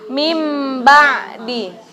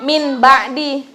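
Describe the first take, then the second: First: The first word ends with a long nasal m. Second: The first word ends with a plain n sound. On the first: The speaker calls it right. "mim ba'di, dua ketukan" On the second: The speaker calls it wrong. "Bukan min ba'di"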